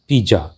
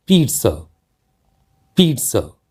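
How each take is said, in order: First: पिज़्ज़ा as "pi-jaa", with a j sound; common mispronunciation. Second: पिज़्ज़ा as "peet-sa", with a t sound; correct pronunciation. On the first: Teacher showing a common mistake, mispronounced with J. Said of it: "और जो गलत उच्चारण है". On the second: Teacher modelling the word, correct pronunciation with TS. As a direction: say पिज़्ज़ा with ts in the middle. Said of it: "जबकि इसका सही उच्चारण जो है". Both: Shown as a demonstration.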